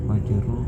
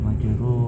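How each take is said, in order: The two takes are said the same way.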